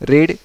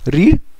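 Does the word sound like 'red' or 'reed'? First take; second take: red; reed. First: The vowel is short, like in 'red'. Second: The vowel is long, like in 'reed'. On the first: It is the past tense. "हम ऐसे उसको pronounce करते हैं" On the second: It is the present tense. "ये रीड का past tense है"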